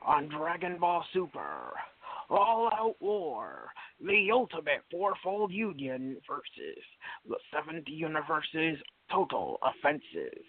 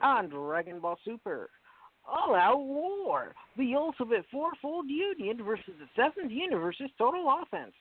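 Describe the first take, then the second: First: It is said in an Optimus Prime-like voice. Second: It is said in his normal voice.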